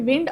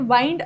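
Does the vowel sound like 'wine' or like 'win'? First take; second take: win; wine. First: The vowel is short, as in 'win'. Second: The vowel is long, as in 'wine'. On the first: It means moving air. "याला आपण विंड असंही उच्चारतो" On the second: It means to wrap or coil. "वाइंड असं सुद्धा उच्चारतो"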